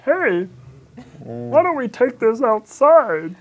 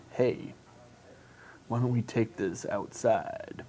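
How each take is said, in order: First: High, slow and sing-song; higher, slower take. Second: Low, quiet creepy come-on; creepy guy voice. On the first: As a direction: try the line sweet and slow. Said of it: "What if I said it". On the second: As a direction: lean in like a creepy stranger. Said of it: "In that creepy guy voice". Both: Pretend.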